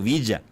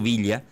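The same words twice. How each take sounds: First: The 'll' is said as a y sound. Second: The 'll' is not said as a y sound. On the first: This is how the speaker says it, picked up from a Buenos Aires parent. "Yo digo Villa" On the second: This is how the speaker does not say it. "no digo Villa"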